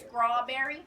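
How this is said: It is said in a Gullah Geechee accent. "by some of my peers and family members, is pronounced"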